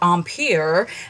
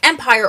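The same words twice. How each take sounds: First: It is said with a fancy pronunciation. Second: It is said with an everyday pronunciation.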